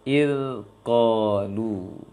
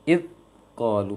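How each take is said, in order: First: The 'dh' sound flows with continuous air. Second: The 'dh' sound is stopped abruptly. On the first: The speaker calls it right. "harus mengalirkan angin" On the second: The speaker calls it wrong. "maka keliru"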